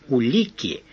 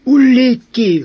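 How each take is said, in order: First: Said in the usual way. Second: Much higher and louder burst; loud exclamation. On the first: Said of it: "Услышав слово". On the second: A narrator's reading. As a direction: blurt it out in alarm. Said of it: "выдохнул сержант".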